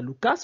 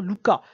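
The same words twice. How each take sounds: First: Lucas with the final S pronounced; final S sounded. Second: Luca ending on an open A, no S; silent final S. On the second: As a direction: say "Luca", dropping the S at the end. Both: Shown as a demonstration. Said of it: "le S n'est pas prononcé ici".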